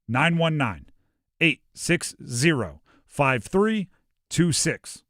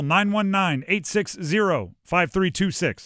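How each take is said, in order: First: The number is read slowly. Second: The number is read quickly. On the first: "I'll slow it down" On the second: "I understand I said that fast"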